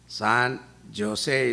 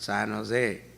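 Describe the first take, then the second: First: Jose begins with a J sound. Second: Jose begins with an H sound. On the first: This is how it is spelled. "is written" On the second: This is how it is actually said. "is pronounced"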